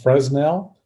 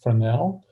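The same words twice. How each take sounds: First: The s in the middle is pronounced. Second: The s in the middle is silent. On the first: The speaker calls it wrong. "I like to joke around and call it Fresnel, but that's not correct" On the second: The speaker calls it right. "The correct pronunciation is Fresnel"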